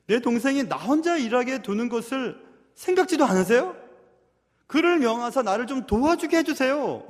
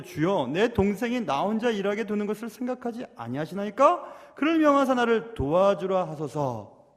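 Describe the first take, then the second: First: Loud, higher-pitched aggrieved plea; pleading protest, pitched up; complaining sister. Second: Measured scripture reading with a plea; mild, formal appeal to the Lord; complaint read from scripture. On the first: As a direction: act out an indignant older sister appealing. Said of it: "지금 언니가 얘기하는 것입니다". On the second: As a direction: read the verse formally, drawing out the final plea. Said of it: "이렇게 예수님께 불평하고 있습니다". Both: Acted.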